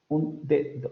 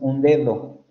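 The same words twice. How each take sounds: First: Both d sounds are full stops with a burst. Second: The second d is soft, without a burst. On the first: The speaker calls it wrong. "este fonema también es alveolar y es oclusivo y es sonoro" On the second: The speaker calls it right. "Nosotros no pronunciamos así la palabra, pronunciamos un dedo"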